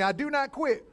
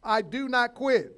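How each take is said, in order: First: Loud, higher call to repeat; declaration. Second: Loud, slow, each word planted; declaration. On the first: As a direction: lead the congregation in the line. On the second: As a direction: declare it for the church to repeat. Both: Shown as a demonstration. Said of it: "say it with me".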